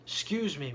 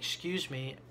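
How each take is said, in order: First: It is said at a loud volume. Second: It is said at a quiet volume. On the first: "with a much louder voice" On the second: "I didn't say it really loud"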